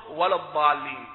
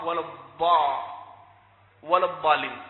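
First: الضالين lower, its ض said as ظ; dad as za. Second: الضالين with a true ض from the tongue's sides; correct dad. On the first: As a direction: put a ظ in place of ض in الضالين. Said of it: "فيجعلها عصا". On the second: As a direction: press the tongue's side for ض in الضالين. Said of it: "والصواب". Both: Shown as a demonstration.

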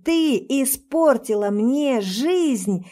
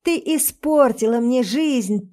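First: Slower emphatic yell. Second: Angry yell. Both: Acted. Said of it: "он продолжает орать".

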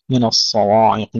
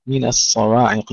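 First: من الصواعق with a heavy nun and waw; imitating a common mistake. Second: من الصواعق with a light nun and thin waw; correct Quran recitation. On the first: Teacher mocking how some brothers misread it. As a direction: mimic the wrong heavy من الصواعق. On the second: Teacher showing students the correct reading. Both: Shown as a demonstration. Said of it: "كما يقرأها بعض الإخوة".

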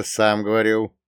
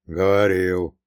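First: Said in the usual way. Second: Grumbled. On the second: A narrator's reading. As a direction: concede it with a short grumble. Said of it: "буркнул Прокоп".

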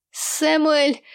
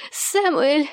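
First: Angry wife yelling for husband; hoarse angry shout. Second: Angry wife calling insistently; hoarse angry shout. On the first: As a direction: bark the name furiously. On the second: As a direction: call the name again, rising. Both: A narrator's reading. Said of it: "охрипшим гневным голосом".

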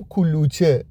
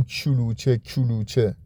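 First: کلوچه with a clean hard k; correct Arabic kaf. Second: کلوچه with k turned into ch, as in chulucheh; wrong ch-like kaf. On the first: Teacher giving the right form of کلوچه. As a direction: say کلوچه with a crisp front k. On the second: Teacher mocking the wrong form of کلوچه for kids. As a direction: soften the k of کلوچه into ch. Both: Shown as a demonstration.

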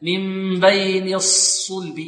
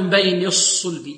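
First: Slow الصلب, rounded only on the second saad; drawn-out من بين, late rounding in الصلب; correct lip timing. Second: الصلب with lips rounded on the first saad; pursed, u-coloured first saad in الصلب; early lip rounding. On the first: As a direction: keep the first saad of الصلب unrounded, then round. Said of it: "لا". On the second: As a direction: demonstrate the fault, rounding too soon in الصلب. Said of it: "نضم الشفتين". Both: Shown as a demonstration.

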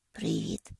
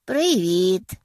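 First: Привіт! whispered, barely voiced; a shy near-whisper of Привіт!; quiet hello. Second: Loud cheerful call of Привіт!. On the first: Noah greets Penny shyly, in a soft whisper. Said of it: "тихо каже він". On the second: Sadie greets the guests at the door with a loud call. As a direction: shout Привіт! from the doorway, much louder. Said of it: "гукає вона". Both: A narrator's reading.

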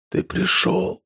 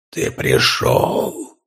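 First: Faint weak whisper. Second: Much lower, very slow scraping whisper; grating mimic voice. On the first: Acted. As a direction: whisper it with last strength. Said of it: "прошептал Данила". (слабый шёпот) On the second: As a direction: scrape the words out like a monster mimicking. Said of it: "проскрежетал голос за его спиной". (скрежещущий голос чудовища)

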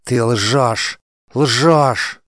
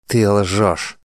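First: Higher and louder, rising to a near-hysterical cry; queen losing her mind, screaming at the lying warrior; frantic accusation. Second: Accusing. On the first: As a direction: hurl ЛЖЁШЬ at him, higher each time. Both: A narrator's reading. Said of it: "Мандана была на грани помешательства".

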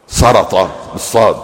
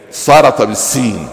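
First: سرط said with a heavy emphatic ص, slowly; with emphatic sad. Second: سرط said with a light plain س, slowly; with plain seen. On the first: Explaining the wrong spelling to the congregation, slow emphatic sad. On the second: Teaching the true root to the congregation, slow light seen. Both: Shown as a demonstration.

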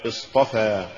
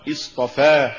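First: Careful model of اصطفى; correct recitation. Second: Deliberate slip on اصطفى; mispronounced recitation. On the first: Narrator shows learners the fix for اصطفى, correct reading. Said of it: "والصواب". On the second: Narrator shows learners the error in اصطفى, wrong reading. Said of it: "وكأن يقال". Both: Shown as a demonstration.

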